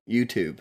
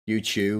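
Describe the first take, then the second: First: It is said in an American accent. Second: It is said in a non-American accent.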